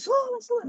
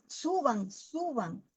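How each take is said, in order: First: The voice sounds anxious and urgent. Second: The voice sounds calm and peaceful. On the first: The caller is distressed about the people. The speaker calls it wrong. "yo no lo decía así" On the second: The caller is at peace while calling. The speaker calls it right. "Era una paz impresionante"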